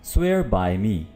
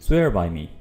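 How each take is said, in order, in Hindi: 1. शब्द अलग-अलग बोले जाते हैं, बीच में थोड़ा रुककर। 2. शब्द तेज़ी से, बिना रुके, एक साथ बोले जाते हैं। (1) "पहले एक एक वर्ड करके अदा करूंगा" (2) "फ्लुएंटली"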